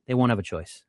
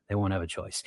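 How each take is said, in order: First: Said in the usual way. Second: Repeated softer and lower; quiet repeat for weight; soft echo. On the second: Real, not acted. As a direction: let it fall away to a murmur. Echoes own line, dropping away.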